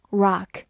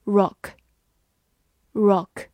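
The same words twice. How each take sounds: First: "rock" with an open American ah vowel; American pronunciation. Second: "Rock" with a short rounded vowel; British-style "Rock". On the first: Teacher gives learners the American pronunciation of rock. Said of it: "美式发音". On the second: Teacher reads the word rock for learners, British-style vowel. British take before the American one. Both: Shown as a demonstration.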